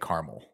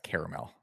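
First: The word is said with two syllables. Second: The word is said with three syllables. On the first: The speaker calls it wrong. "incorrect pronunciation is when you say caramel" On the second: The speaker calls it right. "It is in fact caramel"

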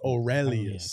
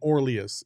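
First: The E syllable is clearly emphasized. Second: The E syllable is not emphasized. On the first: The speaker calls it right. "it's not or, it's Aurelius" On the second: The speaker calls it wrong. "You're not emphasizing the E. ... You're saying Aurelius"

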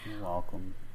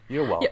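First: It is said in a sad, flat tone. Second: It is said in a cheerful, upbeat tone. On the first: The speaker calls it wrong. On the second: The speaker calls it right.

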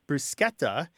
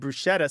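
First: The middle consonant is a k sound. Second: The middle consonant is a sh sound. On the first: The speaker calls it right. "people want to make this word bruschetta" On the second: The speaker calls it wrong. "so it conforms to say the sch in schlep or schmuck"

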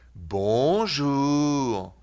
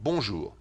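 First: It is said slowly and drawn out. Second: It is said at a normal, brisk pace. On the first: This is how Swiss speakers say it. "The Swiss will say bonjour. See the difference?" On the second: This is how people in France say it. "the French people would say bonjour, like that"

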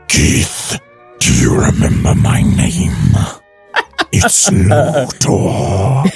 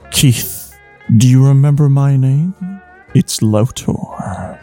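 First: It is said in a Doctor Claw voice. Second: It is said in his normal reading voice.

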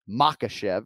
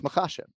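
First: The stress falls on the first syllable. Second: The stress falls on the second syllable. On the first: The speaker calls it wrong. "So it's not Makhachev" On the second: The speaker calls it right. "So we're emphasizing the second syllable, right? ... It's Makhachev"

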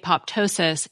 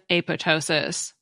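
First: The second P sound is clearly pronounced. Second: The second P sound is left silent. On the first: This is the more common pronunciation. "pronounce the P and say apoptosis" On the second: This is the less common pronunciation. "instead of apoptosis"

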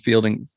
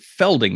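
First: The first vowel sounds like in 'feel'. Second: The first vowel sounds like in 'fell'. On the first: This follows how the name is spelled. "it looks like it's Fielding to me" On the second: This is how others keep saying it. "They keep pronouncing it Felding"

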